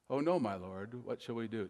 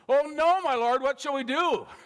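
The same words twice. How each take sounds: First: It is said calmly, as plain reading. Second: It is said in a panicked, frightened way.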